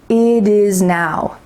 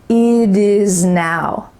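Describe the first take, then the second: First: The T in 'it' sounds like a soft D. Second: The same.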